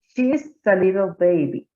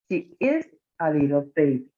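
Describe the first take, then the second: First: The pronoun and verb are joined in one syllable. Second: The pronoun and verb are said as separate words. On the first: "pronunciarlo como si estuviera contraído" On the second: "como si fuera eh, no contraída la forma"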